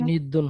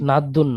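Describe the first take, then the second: First: The first vowel is an i sound. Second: The first vowel is an a sound. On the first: The speaker calls it right. "নিদ্দুন হবে" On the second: The speaker calls it wrong. "নাদ্দুন না, জবর দিয়ে না।"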